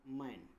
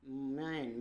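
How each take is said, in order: First: "मैन" with an ऐ vowel, not a long ए; short "ai" vowel. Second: "मैन" with a long ए vowel, not ऐ; drawn-out "ay". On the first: Teacher shows learners English A read as ऐ, open "ai" in "मैन". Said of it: "आय के रूप में". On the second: Teacher shows A before I, long taut "ay" in "मैन". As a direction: say "मैन" as a stretched "mayn". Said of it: "यानी कुछ तनकर चलता है". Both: Shown as a demonstration.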